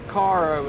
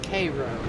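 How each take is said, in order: First: The name is said as Caro. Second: The name is said as Cairo. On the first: The speaker calls it wrong. "It's not Caro" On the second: The speaker calls it right. "it's Cairo"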